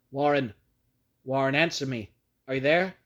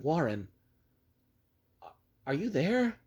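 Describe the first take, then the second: First: Louder, calling into the phone; desperate shout. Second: Calling down, desperate. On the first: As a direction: shout down the line for an answer. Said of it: "shouted, and screamed". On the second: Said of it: "again I called down". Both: Acted.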